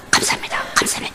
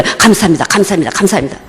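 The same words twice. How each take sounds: First: Barely voiced breathy whisper of 감사합니다; whispered thanks. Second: Said in the usual way. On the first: Pastor waking in New Zealand, whispering thanks. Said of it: "이랬어요". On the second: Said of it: "저도 모르게".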